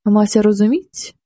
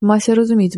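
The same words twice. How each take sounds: First: "Мася розуміть?" drawn out slowly, rising like a question; a groom slowly grumbling a question to himself; slow puzzled grumble. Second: "Мася розуміть" muttered at normal pace, falling at the end; a groom muttering his answer to himself; settled grumble. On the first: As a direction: slowly puzzle over "Мася розуміть?", pitch lifting at the end. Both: A narrator's reading. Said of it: "бурчав він".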